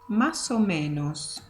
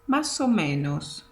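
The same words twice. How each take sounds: First: The words are blended into one flowing unit. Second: The same.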